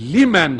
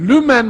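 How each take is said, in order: First: The first vowel is an unrounded i sound. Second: The first vowel is a rounded ü sound. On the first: The speaker calls it right. "Hayır. Semi Allahu limen hamidehtir orası" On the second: The speaker calls it wrong. "mana ve Arapça inceliklere vakıf olmadıkları için Semi Allahu lümen hamideh diyorlar"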